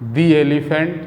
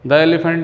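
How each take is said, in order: First: The word 'the' has a long 'ee' vowel. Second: The word 'the' has a short 'uh' vowel. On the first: The speaker calls it right. "दी is pronounced before vowel sound" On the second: The speaker calls it wrong. "द elephant नहीं पढ़ सकते हैं"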